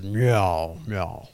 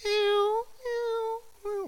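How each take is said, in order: First: Low, loud meow answer; God meowing. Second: Very high squeaky meows; cat meowing. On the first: God answers the cat in meows, low. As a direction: meow back low and steady. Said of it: "God says". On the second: The cat asks God in meows, very high. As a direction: mew like a small cat. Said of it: "And the cat says". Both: Retold or imitated.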